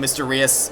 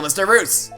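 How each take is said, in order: First: The name runs together, sounding like 'mysterious'. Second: The name ends with a clear 'roos' sound.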